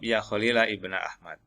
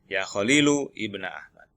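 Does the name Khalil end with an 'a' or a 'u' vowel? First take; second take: a; u. First: The name ends with an 'a' vowel. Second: The name ends with a 'u' vowel. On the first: "bisa dibaca nasab" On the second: "Ini yang dhammah"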